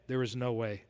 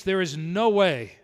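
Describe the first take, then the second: First: "there is no way" dropped much softer and lower; hushed echo. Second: "no" pressed hard and slow, falling; stress on no. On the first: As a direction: let "there is no way" fall to a near-hush. Repeats the phrase, hushed echo. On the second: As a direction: lean on "no" in "there is no way". Repeats the phrase, first take. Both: Retold or imitated.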